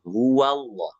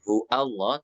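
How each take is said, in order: First: A wa sound links hu to Allah. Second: The wa sound before Allah is dropped. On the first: The speaker calls it right. "tapi huwallah" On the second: The speaker calls it wrong. "bukan hu Allah"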